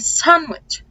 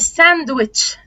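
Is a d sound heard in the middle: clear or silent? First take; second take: silent; clear. First: No d sound is heard after the n. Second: A clear d sound is heard after the n. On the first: The speaker calls it right. "تمام هي sandwich" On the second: The speaker calls it wrong. "مش ساندويتش"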